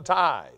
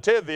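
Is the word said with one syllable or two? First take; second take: one; two. First: The word ends cleanly on the th sound. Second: The word ends in an extra ee sound. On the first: The speaker calls it right. "it was a tithe" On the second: The speaker calls it wrong. "I was reading it and pronouncing it tithy"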